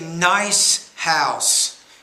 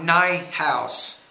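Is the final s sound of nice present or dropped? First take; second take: present; dropped. First: The word nice ends with a clear s sound. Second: The word nice ends without its s sound. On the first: The speaker calls it right. "you want to say nice house" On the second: The speaker calls it wrong. "not nigh house"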